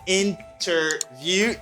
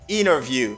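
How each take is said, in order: First: The T after N is clearly pronounced. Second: The T after N is dropped. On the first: The speaker calls it wrong. "You don't say" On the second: The speaker calls it right. "you say interview"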